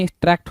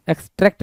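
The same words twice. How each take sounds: First: "एक्सट्रैक्ट" said as "ex-tract"; correct pronunciation. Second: "एक्सट्रैक्ट" said as "ex-trekt"; wrong pronunciation. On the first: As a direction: open A sound in the last syllable of "एक्सट्रैक्ट". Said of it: "एक्सट्रैक्ट होता". ("एक्सट्रैक्ट" में "ट्रैक्ट" का खुला ऐ) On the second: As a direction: close E sound in the last syllable of "एक्सट्रैक्ट". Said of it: "एक्सट्रैक्ट नहीं". ("एक्सट्रैक्ट" को "एक्सट्रेक्ट" बोलें) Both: Shown as a demonstration.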